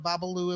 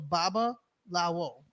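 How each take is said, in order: First: The word ends with a single 'loo' sound. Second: The word ends with a separate 'lawo' sound. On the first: The speaker calls it wrong. "We can't keep calling it Babaloo" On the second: The speaker calls it right. "let's say it right"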